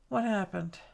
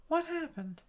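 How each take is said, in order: First: Said in the usual way. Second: WHAT pitched high and soft, falling on "happened"; puzzled question. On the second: Real, not acted. Crafter puzzled by a misbehaving computer, high soft "What happened?". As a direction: ask it high and quietly, baffled.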